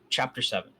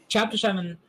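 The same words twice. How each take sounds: First: Said in the usual way. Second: Announcing. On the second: Shown as a demonstration.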